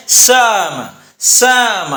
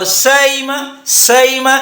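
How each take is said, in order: First: سام drawn out, hamza leaning toward alif; bayn bayn ba'eed. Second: Higher سائمہ, hamza gliding toward ya; bayn bayn qareeb. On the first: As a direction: say سام as a long saa-ma, between hamza and alif. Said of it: "تو یہ بین بین بعید ہے". (ہمزہ اور الف کے درمیان سام) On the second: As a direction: say سائمہ as sa-ima, between hamza and ya. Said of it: "یہ بین بین قریب ہے". (ہمزہ اور یا کے درمیان سائمہ) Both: Shown as a demonstration.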